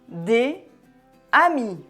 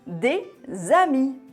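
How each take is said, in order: First: The words are separate, with no z sound. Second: The words are joined by a z sound. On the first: "Si on prononce les mots séparément" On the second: "on lie les mots entre eux"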